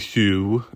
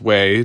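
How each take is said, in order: First: The name sounds like 'hue'. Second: The name sounds like 'way'. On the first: The speaker calls it wrong. "Don't say Hugh" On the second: The speaker calls it right. "it is pronounced Way"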